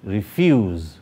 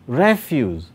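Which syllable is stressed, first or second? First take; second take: second; first. First: The stress is on the second syllable. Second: The stress is on the first syllable. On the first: It is used as a verb. "that's a verb" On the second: It is used as a noun. "that's a noun"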